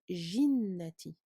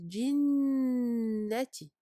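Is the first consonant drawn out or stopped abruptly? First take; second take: drawn out; stopped. First: The first consonant is drawn out with flowing sound. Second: The first consonant is stopped abruptly without flowing. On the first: The speaker calls it wrong. "il ne faut pas le rendre rihu et ne pas prononcer jinnati, surtout pas" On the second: The speaker calls it right. "le bloquer, il ne faut pas euh, lui faire écouler le son"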